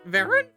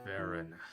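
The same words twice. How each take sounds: First: It is said in a squawky parrot-like voice. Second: It is said in a low, deep voice.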